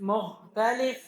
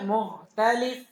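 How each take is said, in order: Both takes have the same delivery.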